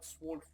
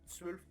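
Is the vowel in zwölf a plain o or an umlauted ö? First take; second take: plain o; umlauted ö. First: The vowel is a plain back o sound. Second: The vowel is the rounded front ö sound. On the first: The speaker calls it wrong. "et non pas zwölf" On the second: The speaker calls it right. "on a un tréma, donc on prononce zwölf"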